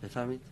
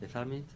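Both takes have the same delivery.

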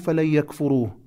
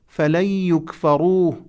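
First: The verb is voiced in its active form. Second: The verb is voiced in its passive form. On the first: Someone will not deny it. The speaker calls it wrong. "لا تقرأه فلن يكفروه" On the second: It will not be denied to them. The speaker calls it right. "فعل مجهول"

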